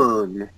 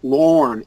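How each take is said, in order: First: The vowel sounds like 'er'. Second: The vowel sounds like 'or'. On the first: The speaker calls it right. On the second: The speaker calls it wrong.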